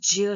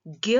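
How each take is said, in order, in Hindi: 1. यह j ध्वनि से शुरू होता है। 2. यह कठोर g ध्वनि से शुरू होता है। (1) "असल में इसे ज्य ही कहना चाहिए" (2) "उसे हम लोग ज्यादातर ज्ञ कहते हैं, जो कि उसकी गलत आवाज है"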